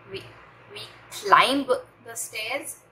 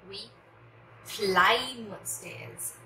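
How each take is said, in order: First: A b sound is heard after the m. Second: No b sound is heard after the m. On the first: The speaker calls it wrong. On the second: The speaker calls it right.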